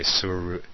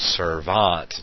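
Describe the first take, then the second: First: The middle of the word has a u vowel. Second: The middle of the word has a v sound. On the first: The speaker calls it wrong. "or however you would say, suruant, that's even hard to say" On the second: The speaker calls it right. "we know that it's pronounced servant"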